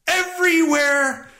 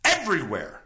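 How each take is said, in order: First: High, slow, drawn-out shout; emphatic. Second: Said in the usual way. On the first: Real, not acted. Repeats it louder for emphasis.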